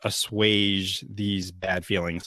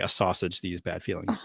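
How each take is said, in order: First: The word is said as a-SWAYJ. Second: The word is said like 'a sausage'. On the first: The speaker calls it right. "I need to assuage these bad feelings" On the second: The speaker calls it wrong. "I would just say a sausage"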